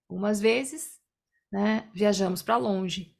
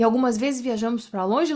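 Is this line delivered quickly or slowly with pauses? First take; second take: slowly; quickly. First: It is said slowly with pauses. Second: It is said quickly without pauses. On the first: The speaker calls it right. "Tem que ser" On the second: The speaker calls it wrong. "Não dá pra"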